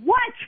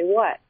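First: It is said irritably, with a puff after the T. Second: It is said neutrally, without a puff of air.

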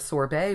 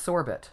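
First: It is pronounced the French way. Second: It is pronounced the British way. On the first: This is the usual American pronunciation. "we pronounce it more often the French way, the sorbet way" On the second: This is the usual British pronunciation. "whereas in British English, it's pronounced sorbet more often"

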